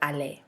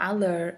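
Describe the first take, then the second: First: The ending sounds like "ay". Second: The ending sounds like "er". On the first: The speaker calls it right. "the er at the end of the word makes it sound more like ay" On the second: The speaker calls it wrong. "It's not aller"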